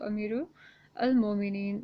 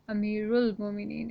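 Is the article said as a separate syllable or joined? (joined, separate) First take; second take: separate; joined. First: The article 'al' is said as a separate syllable. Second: The article is joined onto the preceding word. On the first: The speaker calls it wrong. "is not the correct pronunciation" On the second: The speaker calls it right. "is the correct pronunciation"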